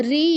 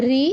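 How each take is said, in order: First: "রি" with a drawn-out ee; long vowel. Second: "রি" with a brief vowel; short vowel. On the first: Teacher reciting Sanskrit vowels to class, long vowel. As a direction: stretch the vowel of "রি". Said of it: "দীর্ঘস্বরগুলো একটু টেনে টেনে". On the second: Teacher reciting Sanskrit vowels to class, short vowel. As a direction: keep "রি" short. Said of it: "অল্প সময় নিয়ে বলতে হবে". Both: Shown as a demonstration.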